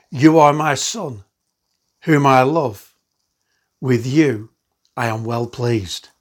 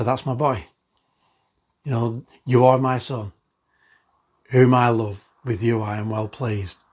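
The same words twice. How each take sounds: First: Slow, louder proclamation as God's voice; solemn divine pronouncement, drawn out; voice from heaven. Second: Hushed paternal warmth; fond father's voice. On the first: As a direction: declare it slowly, like a voice from heaven. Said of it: "And a voice came from heaven". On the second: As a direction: say it like a father beaming over his son. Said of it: "just to speak out and say". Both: Acted.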